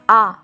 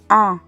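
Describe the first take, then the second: First: The vowel is oral, air only through mouth. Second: The vowel is nasal, air through the nose. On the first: "the air only goes through the mouth" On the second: "it should be pronounced with the nose"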